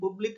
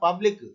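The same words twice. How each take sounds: First: The first vowel is a rounded 'oo' sound. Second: The first vowel is an open 'uh' sound. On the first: The speaker calls it wrong. "పబ్లిక్ అనలే" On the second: The speaker calls it right. "పాగా పలికినాం"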